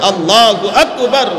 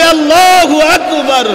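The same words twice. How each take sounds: First: It is said at normal volume. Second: It is said more loudly.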